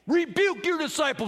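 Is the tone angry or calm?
angry. The words are said loudly and angrily. The speaker calls it right. "I think they were screaming and yelling, That was my best angry Pharisee voice"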